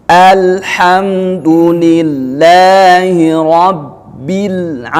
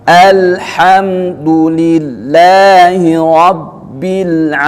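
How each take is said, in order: Both takes have the same delivery.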